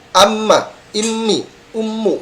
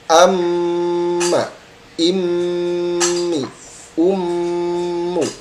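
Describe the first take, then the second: First: The m is released quickly without holding. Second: The m is held with nasal pressure first. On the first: The speaker calls it wrong. "Jadi tidak hanya lepas seperti itu" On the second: The speaker calls it right. "tapi ada tekanan dulu"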